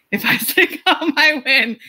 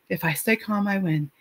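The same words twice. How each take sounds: First: Higher, laughing through "If I stay calm, I win"; laughing mantra. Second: Softly repeating "If I stay calm, I win" to herself; quiet self-talk. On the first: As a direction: repeat the mantra again, now chuckling and lifted. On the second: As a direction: say it under your breath as a calming mantra. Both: Retold or imitated. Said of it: "I stand at the bottom like".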